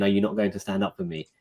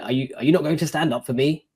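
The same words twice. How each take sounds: First: Said in the usual way. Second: Imitating a judge's sharp, higher-pitched question; mock-angry judge rising in pitch; angry frustrated judge. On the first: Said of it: "the judge looking at me angrily and saying". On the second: Judge rebuking the seated man, a mild mock anger. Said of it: "quite angrily, like, frustrated".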